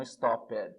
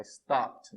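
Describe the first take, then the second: First: "stopped" as two syllables, stop-PED; wrong extra syllable. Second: "stopped" as one syllable, stopt; correct -ed ending. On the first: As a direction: sound out a separate "ped" in "stopped". ("stopped" errado, em duas sílabas) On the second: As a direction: end "stopped" on a crisp PT. ("stopped" numa sílaba, com som de T) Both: Shown as a demonstration. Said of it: "não stopped".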